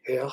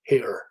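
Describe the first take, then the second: First: "hair" with the final R dropped, /he/; vernacular "hair". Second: "hair" with a clear final R, /heɹ/; middle-class "hair". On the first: Lecturer shows a vernacular Scottish "hair" without R. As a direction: say "hair" with a silent, weak R. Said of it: "a more vernacular speaker". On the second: Lecturer shows his own middle-class "hair" with a clear R. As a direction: say "hair" ending in a full R. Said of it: "productions like mine". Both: Shown as a demonstration.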